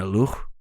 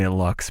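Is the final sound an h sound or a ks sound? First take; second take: h sound; ks sound. First: The word ends with an h sound. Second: The word ends with a ks sound. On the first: The speaker calls it right. "It's an H sound" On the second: The speaker calls it wrong. "because I'm a stupid American"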